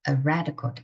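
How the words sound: The stress falls on the word red. It means a British soldier. "강세 거기다 두시고 두 단어를 붙여야 됩니다"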